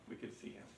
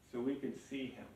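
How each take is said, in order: First: Whispered. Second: Quiet. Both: Shown as a demonstration.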